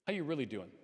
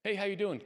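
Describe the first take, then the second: First: Sincere follow-up. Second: High, bright small-talk greeting, tossed off; a quick casual hello in passing; breezy pleasantry. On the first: Asking a friend a second time, gently and sincerely. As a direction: lean in and mean the question. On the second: Greeting a friend with surface small talk, breezy. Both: Shown as a demonstration. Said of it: "Ask twice".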